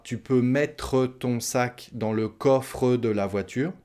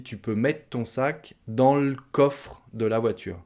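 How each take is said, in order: First: Slow "mè-treu" and "co-freu"; final E pronounced. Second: "mettre" as "mett'", "le coffre" as "l'coffr'"; spoken French elision. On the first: Teacher shows learners what not to say, every final E pronounced. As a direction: sound the final E in "mettre" and "coffre". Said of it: "on ne dit pas". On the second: Teacher shows learners what people say, endings swallowed. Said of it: "non, on dit". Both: Shown as a demonstration.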